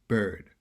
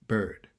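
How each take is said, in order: Both takes have the same delivery.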